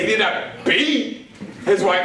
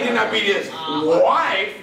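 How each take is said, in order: First: The stress falls on the word 'beat'. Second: The stress falls on the word 'wife'. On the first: He hit his wife, but only lightly. "that means he just smacked around a little bit" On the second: He beat someone else, his sister. "it was his sister he beat up"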